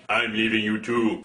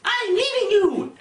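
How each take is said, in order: First: Very deep mock giant voice; imitated giant blue man. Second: Higher-pitched mock girlfriend voice; imitated woman breaking up. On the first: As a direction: answer in a hugely lowered voice. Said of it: "giant naked blue man is all like". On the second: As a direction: declare it in a raised, put-on woman's voice. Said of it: "she's all like".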